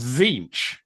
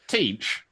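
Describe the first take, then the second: First: The word begins with a Z sound. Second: The word begins with a T sound. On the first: The speaker calls it right. "This T is silent" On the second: The speaker calls it wrong. "It's not"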